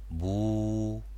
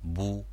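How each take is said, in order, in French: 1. La voyelle est longue. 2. La voyelle est courte. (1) "les voyelles longues" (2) "la dhamma"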